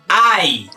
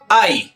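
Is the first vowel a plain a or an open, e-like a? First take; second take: open; plain. First: It starts with an open, e-like a. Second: It starts with a plain Spanish a. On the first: The speaker calls it right. "con la A abierta que vimos en el capítulo anterior" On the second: The speaker calls it wrong. "no se pronuncia ay"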